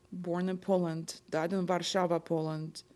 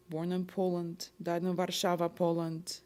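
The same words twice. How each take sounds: The two takes are said the same way.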